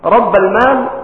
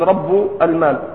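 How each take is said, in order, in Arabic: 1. تنتهي الكلمة الأولى بالفتحة. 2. تنتهي الكلمة الأولى بالضمة. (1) "ضبطوها بالنصب على أنها في موضع النصب مفعول به" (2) "وليس كما قرأ عبد الرحمن"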